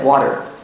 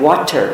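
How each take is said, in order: First: The word is said in a relaxed, casual way. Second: The word is articulated carefully and crisply. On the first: It is the usual everyday American way. "instead of water" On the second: It is easier for non-native listeners to understand. "I have to speak more clearly. I have to say things like water"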